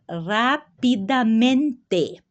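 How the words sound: It is pronounced with Spanish sounds. "em espanhol é"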